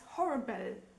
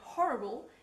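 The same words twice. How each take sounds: First: The ending has a clear E before the L. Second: The ending is a plain syllabic L. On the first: "switching L and E around" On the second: "a word like horrible"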